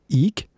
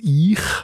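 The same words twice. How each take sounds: First: It is said in the Schwarzbuben way. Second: It is said in the Basel city way.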